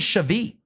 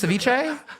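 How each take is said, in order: First: The word is said in a shortened, garbled form. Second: The word is said in its full standard form. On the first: The speaker does not know the dish. The speaker calls it wrong. "I would see some certain influencers, you know, say stuff like" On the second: The speaker knows the dish. The speaker calls it right. "You mean ceviche?"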